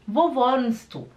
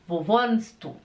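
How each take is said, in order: First: Spoken naturally with the t sound dropped. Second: The same.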